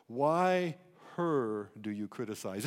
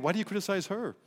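First: "her" fronted and weighted, said slow and low; stress on her. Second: Said in the usual way. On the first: Shown as a demonstration. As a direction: lean hard on "her" right after "Why". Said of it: "It's emphatic". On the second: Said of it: "we read it".

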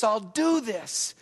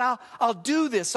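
First: Slow resolve. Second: Said in the usual way. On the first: Retold or imitated. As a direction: let the resolve sink in slowly. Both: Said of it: "You can see him openly wrestle with this".

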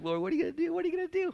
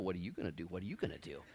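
First: Very high-pitched, eager acted questioning; super excited. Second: Low, soft, understated turn-it-back question; the Lord replying. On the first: Believer asks the Lord what is next, super excited. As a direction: climb up high like an overexcited kid pestering. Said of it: "super excited about the Lord doing stuff". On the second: Acted. The Lord turns the question back on the believer, low and quiet. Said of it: "the Lord looks at me and says".

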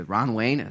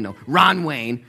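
First: Said in the usual way. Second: "Ron" slow and louder, correcting; stress on Ron. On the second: Shown as a demonstration. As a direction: lean on "Ron" to fix the name.

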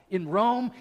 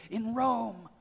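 First: Rome rising up in disbelief, a bit louder; surprised gossip hearing about the Roman church; surprised question. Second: Said in the usual way. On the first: Retold or imitated. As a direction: ask "In Rome?" with the pitch climbing on Rome. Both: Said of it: "they're talking like this".

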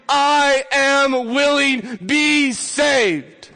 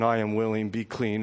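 First: "I am willing" slow, higher and much louder, each word hammered; emphatic. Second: "I am willing" said softly and lower, gently; tender, quiet. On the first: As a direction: declare "I am willing" very slowly and loudly. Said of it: "he will say to you emphatically". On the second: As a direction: speak "I am willing" softly, like a loving hand on the head. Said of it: "a loving hand rests upon his head". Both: A narrator's reading.

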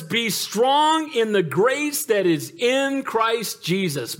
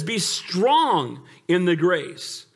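First: Very slow, each word drawn out; stretched-out scripture line; slow emphatic. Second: Very slow, drawn out; deliberate slowed scripture; slow emphatic. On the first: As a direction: lean on every word of the verse. Preacher drawing out key verse. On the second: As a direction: draw it out, pressing strong. Verse repeated slowly. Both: Acted.

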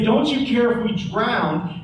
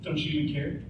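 First: An accusing question, not a real one; accusation. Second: Softer, sour sarcastic jab. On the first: Disciples accusing Jesus in the storm, bitter accusation. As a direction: throw it at him as a charge. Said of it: "it's not a question, it's an accusation". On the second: Disciples needling the sleeping Jesus, quiet sarcasm. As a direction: mutter it with bitter sarcasm. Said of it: "into sarcasm". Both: Retold or imitated.

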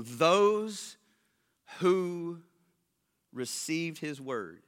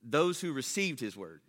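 First: "those", "who", "received his word" set apart by long pauses; word-by-word emphasis. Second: "Those who received his word" slow, low and unbroken; joined-up emphasis. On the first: Preacher reading verse forty-one, pausing after "those" and "who". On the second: Preacher repeating the verse after stopping, "Those who received his word" unbroken. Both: Real, not acted. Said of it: "What I wanna focus on is".

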